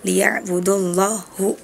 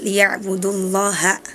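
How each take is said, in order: First: The final vowel is a 'u' sound. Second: The final vowel is an 'a' sound. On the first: The speaker calls it wrong. "harusnya fathah tapi malah dibaca dhammah" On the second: The speaker calls it right. "Harusnya liya'budullaha"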